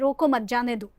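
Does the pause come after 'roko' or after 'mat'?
after mat. The pause comes after the word mat. Let the friend leave. "छोड़ दो, जाने दो उसे"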